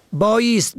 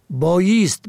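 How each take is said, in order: First: بایست as "bāyast"; fatha on second letter. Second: بایست as "bāyest"; kasra on second letter. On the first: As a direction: open "a" after the y in بایست. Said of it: "به فتح دوم". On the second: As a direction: close front vowel after the y in بایست. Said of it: "به کسر دوم". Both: Shown as a demonstration.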